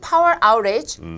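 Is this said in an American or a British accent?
American. It is spoken with an American accent. "미국"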